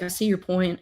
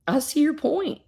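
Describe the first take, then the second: First: Said in the usual way. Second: Put-on higher, rising first try of the old man's line; the storyteller's first go at the father's reply, pitched up and rising. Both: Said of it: "no, no, wait".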